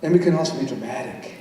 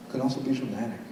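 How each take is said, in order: First: Said in the usual way. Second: Much softer, dramatic; softer, hushed and dramatic. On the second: Shown as a demonstration. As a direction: drop to a theatrical near-whisper.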